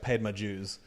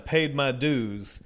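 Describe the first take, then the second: First: The d in dues sounds like a j. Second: The d in dues sounds like a plain d. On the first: The speaker calls it wrong. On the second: The speaker calls it right.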